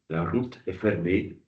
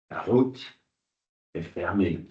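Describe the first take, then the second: First: The r is rolled with the tongue tip. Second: The r is a harsh, strongly throaty sound. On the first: It is typical of a Burgundian or southern accent. "C'est celui de l'accent, de l'accent bourguignon" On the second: It is typical of a Parisian accent. "c'est celui plutôt de l'accent parisien qui est très guttural"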